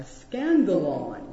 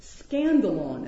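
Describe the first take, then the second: First: Scandalon said slowly, SKAN-da-lon; Greek word scandalon. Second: Scandalon repeated slowly, stress on SKAN; Greek word scandalon. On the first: Pastor teaching the Greek word, slow scandalon. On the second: Pastor repeating the Greek term, slow Scandalon. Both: Shown as a demonstration. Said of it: "Greek word that might be transliterated".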